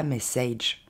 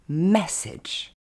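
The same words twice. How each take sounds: First: MESSAGE wrongly ending in a long "aydge"; French speakers' mispronunciation. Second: MESSAGE as "MESS-edge", first syllable stressed; correct English pronunciation. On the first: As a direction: say MESSAGE as "meh-SAYDGE", low and even. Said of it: "On ne dira pas". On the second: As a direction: punch MESS, then a short "edge" in MESSAGE. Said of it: "L'accent tonique tombe sur le mais". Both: Shown as a demonstration.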